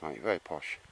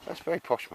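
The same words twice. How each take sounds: First: Quiet lowered aside, still teasing; muttered tease. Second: Teasing, pitched up high; a pitched-up jab at his posh kit; playful high mock-posh tease. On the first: Retold or imitated. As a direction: lower and softer, half to himself. Repeats tease, dropping away. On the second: Teasing mate about posh table.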